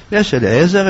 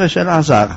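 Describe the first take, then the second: First: "אליעזר" said with an i-e glide, Eli-ezer; "אליעזר" pronounced as Eliezer, distinct from Elazar; name with middle vowel. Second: "אלעזר" said El-azar, no i sound; "אלעזר" pronounced as Elazar, distinct from Eliezer; name without middle vowel. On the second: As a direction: say "אלעזר" as El-a-ZAR. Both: Shown as a demonstration. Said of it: "לא להחליף ביניהם".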